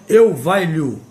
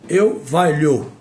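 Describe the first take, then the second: The two takes are said the same way.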